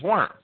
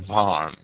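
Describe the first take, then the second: First: Worms with English w, like the word worms; English pronunciation. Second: Worms with German v, "Vorms"; German pronunciation. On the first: Lecturer naming Luther's Diet, Worms in English pronunciation. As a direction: say Worms the English way, W sound first. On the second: Lecturer correcting the place name, Worms in German pronunciation. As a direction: say Worms the German way, V sound and open o. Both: Shown as a demonstration. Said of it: "as I believe it's pronounced in German".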